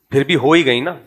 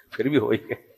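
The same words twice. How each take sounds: First: Said in the usual way. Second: Much softer, lower, almost under the breath; softer, lower aside echoing پھر بھی ہو ہی گئی; hushed repeat. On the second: Real, not acted. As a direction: chuckle it again quietly to yourself. Soft repeat after a laugh.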